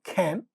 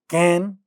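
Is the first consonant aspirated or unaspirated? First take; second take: aspirated; unaspirated. First: The first consonant has a puff of air. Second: The first consonant has no puff of air. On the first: "the initial sounds get aspirated" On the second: "without aspiration"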